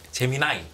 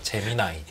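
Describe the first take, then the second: First: The word is said with a higher pitch. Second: The word is said with a lower pitch.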